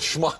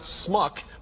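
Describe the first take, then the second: First: The word begins with a sh sound. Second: The word begins with a plain s sound. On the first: The speaker calls it right. "but schmuck" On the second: The speaker calls it wrong. "which is not smuck"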